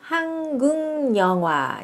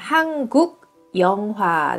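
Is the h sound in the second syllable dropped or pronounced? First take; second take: dropped; pronounced. First: The h sound in the second syllable is dropped. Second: The h sound in the second syllable is pronounced.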